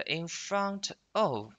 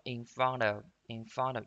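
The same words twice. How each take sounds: First: "in front of" word by word, unlinked; full citation form. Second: "front of" linked, t voiced like a d; fast American linking. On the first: Teacher naming the words to be linked, full "in front of". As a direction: give "front" its t and "of" its full vowel. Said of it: "它是可以连读的啊". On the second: Teacher showing quick American speech, linked "in front of". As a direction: run "in front of" together as "in fronda". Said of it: "听美国人读得很快，". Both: Shown as a demonstration.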